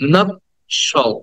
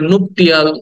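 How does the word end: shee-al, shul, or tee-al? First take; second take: shul; tee-al. First: The word ends with a short 'shul' sound. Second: The word ends with a 'tee-al' sound. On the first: The speaker calls it right. "The correct pronunciation should be" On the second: The speaker calls it wrong. "আমরা এটাকে নুপটিয়াল"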